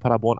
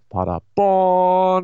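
First: The stress is on the first syllable. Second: The stress is on the last syllable. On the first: "Warum betonst du Paderborn auf der ersten Silbe?" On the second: "Weil es nicht Paderborn in the USA ist"

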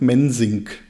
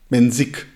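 First: An n sound comes before the final k. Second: No n sound comes before the final k. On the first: The speaker calls it wrong. "Ich baue dem immer mein N ein" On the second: The speaker calls it right. "Mensik ohne N"

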